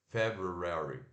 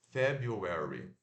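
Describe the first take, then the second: First: The second syllable is said as 'roo'. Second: The second syllable is said as 'yoo'. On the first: "Aqui o R puxado e o U de uva. Ru" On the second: "ao invés de fazer ru, né? O R U, faz o you"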